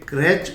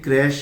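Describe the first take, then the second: First: The word ends with a 'ch' sound. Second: The word ends with an 'sh' sound. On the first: The speaker calls it wrong. "यह क्रैच उच्चारण गलत है।" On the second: The speaker calls it right. "इसका सही उच्चारण basically क्रैश ही होता है"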